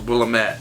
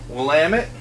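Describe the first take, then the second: First: It is said the way the speaker used to say it. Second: It is said the way the speaker now says it. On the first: The speaker calls it wrong. "I thought that was Willamette" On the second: The speaker calls it right. "Willamette is the correct pronunciation"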